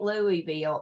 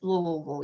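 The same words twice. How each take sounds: First: The city name is said the outsider way. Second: The city name is said the local way. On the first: The speaker calls it wrong. "It ain't Louisville" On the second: The speaker calls it right. "it's Louisville, y'all"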